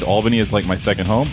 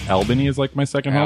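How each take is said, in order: First: Albany is pronounced the way locals say it. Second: Albany is pronounced the way outsiders say it. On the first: The speaker calls it right. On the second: The speaker calls it wrong.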